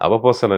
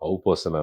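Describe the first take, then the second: First: The word begins with the syllables 'ava'. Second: The word begins with the diphthong 'au'. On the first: The speaker calls it wrong. "అవపోసన అనేవాడిని" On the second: The speaker calls it right. "ఔపోసన అనాలని"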